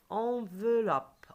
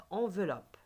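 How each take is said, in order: First: "Enveloppe" slow, louder and higher, in three beats; "Enveloppe" stretched out for repeating; slow syllables. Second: Said in the usual way. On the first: Shown as a demonstration. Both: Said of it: "Répétez après moi".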